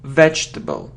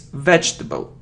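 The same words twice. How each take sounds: First: The word is said with three syllables. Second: The same.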